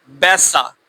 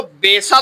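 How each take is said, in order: First: बैसा with a short open e like in English let; correct short e. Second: बेसा said with a long closed e, the wrong way. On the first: (बैसा को छोटी ए के साथ, सही उच्चारण) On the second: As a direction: stretch the e in बेसा like a long German e. (बेसा को लंबी ए के साथ, गलत उच्चारण) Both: Shown as a demonstration. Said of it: "बेसा तो नहीं ना कहा था हमने".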